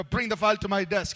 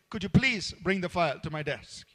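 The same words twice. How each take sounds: First: Curt order with no please; demanding tone, no courtesy; blunt command. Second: Gentle, gracious asking; polite request. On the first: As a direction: bark it like a boss who expects it done. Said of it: "rather than saying". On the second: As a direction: ask it kindly, with "please". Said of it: "You say". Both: Shown as a demonstration.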